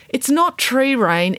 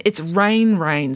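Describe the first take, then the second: First: "not" stretched slow and high, denying; stress on not. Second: First "rain" leaned on, slow and falling; stress on rain. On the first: Girl insists to Mum, stressing not. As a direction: hit "not" hard in "It's not tree rain". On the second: Girl corrects Mum, slow stress on rain. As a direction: say "rain rain" slowly, first "rain" punched. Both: Acted.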